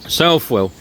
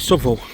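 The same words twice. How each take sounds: First: It is said the up-country way. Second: It is said the Nottingham local way.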